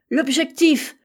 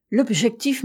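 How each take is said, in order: First: Louder, higher cry of sudden realisation; exclaimed cry. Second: Said in the usual way. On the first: A narrator's reading. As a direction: cry it out as if just discovering it. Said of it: "s'écria-t-il".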